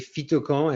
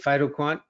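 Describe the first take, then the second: First: The name is pronounced the French way. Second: The name is pronounced the American way. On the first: "in French, I would say phytocan" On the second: "in the U S, we say phytoquant"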